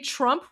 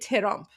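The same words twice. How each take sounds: First: The first two consonants are said together. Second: A vowel separates the first two consonants. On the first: "we don't say Trump" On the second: "we say Trump"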